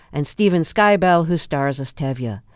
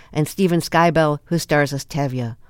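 The two takes are said the same way.

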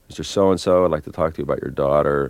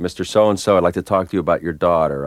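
First: It sounds tentative, like feeling the way through. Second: It sounds purposeful, like really trying to persuade.

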